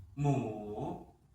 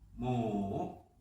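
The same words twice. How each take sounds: First: The pitch dips low, then rises. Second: The same.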